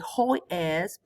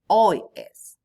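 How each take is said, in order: First: The h at the start is pronounced aloud. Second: The h at the start is silent. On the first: The speaker calls it wrong. "we don't say" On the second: The speaker calls it right. "but we say hoy es. And we can the silent H"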